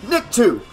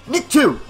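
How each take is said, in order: The two takes are said the same way.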